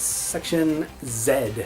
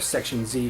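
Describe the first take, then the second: First: The letter Z is said the non-American way. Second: The letter Z is said the American way.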